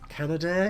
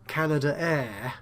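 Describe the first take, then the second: First: It runs straight into 'air' with no extra vowel. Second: It has a separate extra vowel before 'air'. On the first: The speaker calls it wrong. "It just sounds a bit wrong to me" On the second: The speaker calls it right. "I would pronounce that Canada Air"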